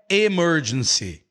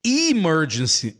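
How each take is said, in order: First: Emergency starting with an "eh" sound; mispronounced first vowel. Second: Emergency starting with a short "ih" sound; correct first vowel. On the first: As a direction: say emergency wrongly as eh-MER-gen-cy. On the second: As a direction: say Emergency as ih-MER-gen-cy. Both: Shown as a demonstration. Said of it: "não é emergency".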